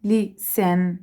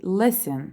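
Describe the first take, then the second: First: Listen said with the stress on the second syllable, lis-TEN; listen stressed as lis-TEN, the wrong way. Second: Listen with the stress on the first syllable, LIS-ten; listen said the right way, LIS-ten. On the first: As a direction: push the weight onto the end of listen, lis-TEN. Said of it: "إحنا ما بنحكي مثلًا". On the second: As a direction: hit the front of listen, LIS-ten, and let the ending fall. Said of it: "التركيز بيكون على ال first syllable". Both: Shown as a demonstration.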